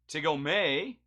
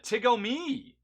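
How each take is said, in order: First: The final syllable sounds like 'may'. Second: The final syllable sounds like 'me'. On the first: "imply a may instead of a me" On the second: "Tigo me, says Doctor Easy Tear"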